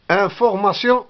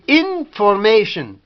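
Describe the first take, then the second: First: It is pronounced the French way. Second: It is pronounced the English way, with sh. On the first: "Information en français" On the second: "En anglais, on dit information. Shin"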